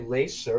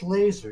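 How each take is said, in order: First: The middle consonant is a hissing s sound. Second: The middle consonant is a buzzing z sound. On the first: The speaker calls it wrong. "You don't say laser" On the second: The speaker calls it right. "it's laser. It should be spelled with a Z"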